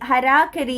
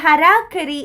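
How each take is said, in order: First: It is said like 'harakari'. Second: It is said like 'harakari'.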